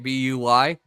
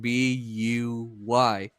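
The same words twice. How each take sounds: First: The letters are run together quickly. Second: The letters are spelled out slowly.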